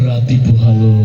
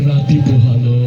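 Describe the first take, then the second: Both takes have the same delivery.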